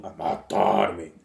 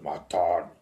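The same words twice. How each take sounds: First: Slow, low voice from under the ground; cavernous voice. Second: Low voice from the depths; lightly voiced talking earth; cavernous earth voice. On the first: Acted. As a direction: speak as the earth itself, slow and deep. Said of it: "disse uma voz cavernosa". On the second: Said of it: "A terra falando".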